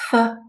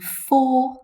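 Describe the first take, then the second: First: The word is said with a reduced vowel. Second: The word is said with a full vowel. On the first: "f is the weak form" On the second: "for is the strong form"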